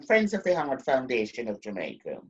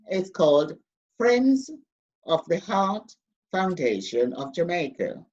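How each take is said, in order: First: It is said quietly and quickly. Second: It is said loudly and slowly.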